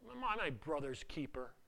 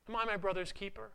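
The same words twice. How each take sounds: First: It is said with pain and strain. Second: It is said in a plain way.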